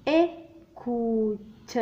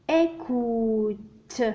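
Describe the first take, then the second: First: ايكوت drawn out even slower, syllable by syllable; very slow teaching read of ايكوت; slow spelled-out word. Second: ايكوت stretched out very slowly; slow teaching read of ايكوت; slow spelled-out word. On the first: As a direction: let each part of ايكوت ring out. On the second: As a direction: sound out ايكوت slowly for pupils. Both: Shown as a demonstration.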